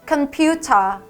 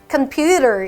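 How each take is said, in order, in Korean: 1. 영국식 억양이고, T 발음이 분명해요. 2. 미국식 억양이고, T 발음이 약해요. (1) "computer 이렇게 읽어주셔야 됩니다" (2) "computer 이렇게 들어가지만"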